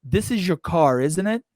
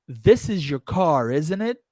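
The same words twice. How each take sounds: No difference in how they are said.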